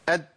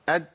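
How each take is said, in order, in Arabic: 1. النفس مقطوع، فيبدو مثل d. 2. النفس مقطوع، فيبدو مثل d.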